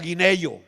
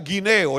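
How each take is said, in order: First: A 'y' sound is inserted before the final 'o'. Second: The ending is said as a plain 'eo'. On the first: This is how rural country people say it. The speaker calls it wrong. "él decía guineyo" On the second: This is the standard way of saying it. The speaker calls it right. "Él no decía guineo"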